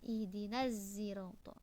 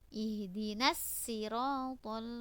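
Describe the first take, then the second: First: The word begins with an s blended toward z. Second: The word begins with a plain s sound. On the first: This is a second reader's transmission of the word. "Khalad hanya membaca ismam" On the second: This is one reader's transmission of the word. "dengan sin"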